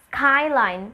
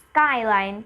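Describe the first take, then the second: First: The k after s has a puff of air. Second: The k after s has no puff of air. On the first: The speaker calls it wrong. "We're not saying skyline" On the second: The speaker calls it right. "Rather, skyline"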